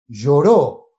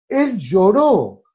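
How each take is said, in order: First: Said in the usual way. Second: "Él lloró" drawn out very slowly, each word weighted; slow emphatic stress. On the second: Shown as a demonstration. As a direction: linger on "Él lloró" to make it land. ("Él lloró" muy lento y enfático) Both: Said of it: "preacher repeats the word".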